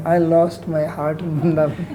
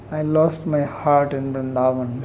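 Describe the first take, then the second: First: Gushing pilgrim parody with a laugh; lightly hammed-up swooning devotee; mock sentimental devotion. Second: Mocking a gushing devotee, half-laughing; hammed-up lovesick pilgrim, laughing through it; mock sentimental devotion. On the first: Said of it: "You've seen those people putting on the". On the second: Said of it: "putting on the".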